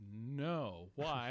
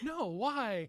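First: It is said flat and low. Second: It is said high, upbeat and hopeful.

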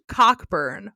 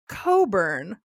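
First: The first syllable sounds like 'cock' with a k. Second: The first syllable sounds like 'co' with no k. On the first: The speaker calls it right. "His name is George Cockburn" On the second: The speaker calls it wrong. "another video that pronounced it Coburn"

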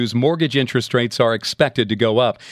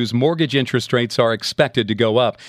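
Both takes have the same delivery.

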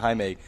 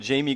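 First: The name is said with a Spanish pronunciation. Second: The name is said with an English pronunciation. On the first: The speaker calls it right. "they're Latin, so they pronounce it Jaime" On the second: The speaker calls it wrong. "Everybody's like"

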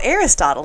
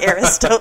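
First: The ending is pronounced like 'bottle'. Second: The ending is pronounced like 'Chipotle'. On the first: The speaker calls it right. "that's how you pronounce that" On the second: The speaker calls it wrong. "I thought it was pronounced like Chipotle"

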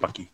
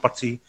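First: The middle consonant is a k sound. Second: The middle consonant is a t sound. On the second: "You can call him Pati"

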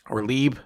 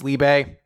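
First: The name ends without a final vowel sound. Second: The name ends with a pronounced vowel sound. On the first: "I'm pretty sure it's Lieb" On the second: "I don't know if you pronounce the E or not"

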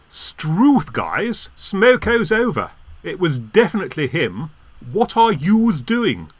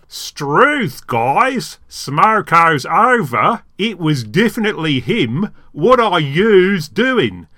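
First: It is said without a regional accent. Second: It is said in an Australian accent.

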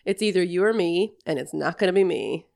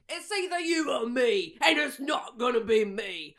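First: It is said in the speaker's own accent. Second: It is said in a British accent.

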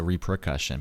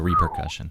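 First: The R comes after the P: repre-. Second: The R comes before the P: reper-. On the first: The speaker calls it wrong. "I wanted to put the R after the P, so repercussion, but that's wrong" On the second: The speaker calls it right. "That's how it's spelled"

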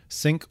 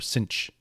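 First: The name ends with a k sound. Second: The name ends with a ch sound. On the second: "when I think cinch, I think like cinch your waist"

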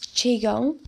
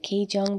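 First: The first syllable sounds like the word Qi. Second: The first syllable follows the written spelling instead. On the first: The speaker calls it right. "it's Qigong because it flows the Qi" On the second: The speaker calls it wrong. "I pronounce it Qigong because I read it for the first time"

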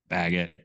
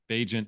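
First: The middle consonant is a hard g sound. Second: The middle consonant is a soft j sound. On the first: The speaker calls it wrong. "We call him Baggett" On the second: The speaker calls it right. "Bajent is how it's pronounced"

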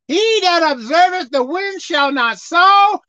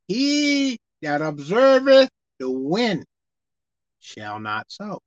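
First: The verse is read at a normal pace. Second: The verse is read slowly and deliberately.

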